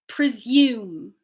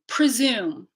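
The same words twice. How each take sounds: First: It has a y sound after the s. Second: It has no y sound after the s. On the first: "British English" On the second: "North American English"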